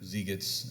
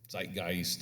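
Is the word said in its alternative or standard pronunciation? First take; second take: alternative; standard. First: The word is said in an alternative pronunciation. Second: The word is said in its usual pronunciation.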